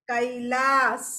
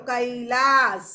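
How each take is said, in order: Both takes have the same delivery.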